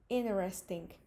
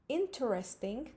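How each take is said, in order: First: The T after the N is silent. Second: The T after the N is clearly pronounced. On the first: "digamos interesting" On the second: "en lugar de decir interesting"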